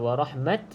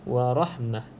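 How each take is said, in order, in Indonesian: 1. Kata itu diakhiri dengan bunyi t. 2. Kata itu diakhiri dengan bunyi h. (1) "Kalau warahmat bermaksud huruf ta yang terbuka" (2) "jadi kita baca seperti huruf ha"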